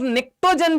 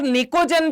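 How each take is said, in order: First: निक्टोजन with a k-t cluster in the middle; variant pronunciation. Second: निकोजन said with a plain k, no t; variant pronunciation. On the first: Teacher showing students another way some people say it, variant pronunciation निक्टोजन. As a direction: say निक्टोजन as nik-to-jan. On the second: Teacher showing students how some people say it, variant pronunciation निकोजन. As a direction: say निकोजन as nee-ko-jan. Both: Shown as a demonstration. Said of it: "कुछ लोग ... भी कहते हैं".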